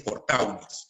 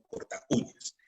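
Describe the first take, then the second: First: Corta uñas run together, au as one syllable; cor-tau-ñas with the U swallowed; wrong diphthong version. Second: Corta uñas split before a stressed U; quiet cor-ta-Ú-ñas, two separate vowels; correct hiatus version. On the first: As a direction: glide from corta into uñas without stressing the U. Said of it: "No se dice corta uñas". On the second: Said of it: "sino corta uñas". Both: Shown as a demonstration.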